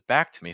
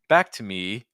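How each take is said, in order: First: The pitch on me drops lower. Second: The pitch on me stays fairly high. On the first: The speaker calls it right. "Or is it actually lower?" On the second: The speaker calls it wrong. "is the pitch on me right?"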